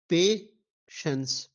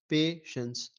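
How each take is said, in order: First: Very slow, a touch louder; split into syllables. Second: Said in the usual way. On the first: Shown as a demonstration. Teacher spelling out syllables for students, slowly. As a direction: say patience slowly as pe-shens, two clear beats. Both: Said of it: "तो इसके तीन हैं".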